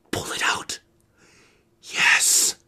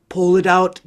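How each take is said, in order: First: Whispered, barely there; tense whisper. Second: Said in the usual way. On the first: Acted. Teacher whispers the careful pull to the class. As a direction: breathe the words out in suspense. Tense moment pulling the thorn. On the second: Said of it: "let's carefully pull out".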